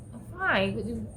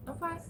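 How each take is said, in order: First: Said in the usual way. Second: A curt, dismissive "I'm fine." with a high rising lilt, quieter; giving attitude. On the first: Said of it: "Ma, you sure you okay?". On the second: Retold or imitated. To her son asking if she's okay, curt attitude. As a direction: brush off the question with a little attitude. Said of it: "I gave him an attitude too".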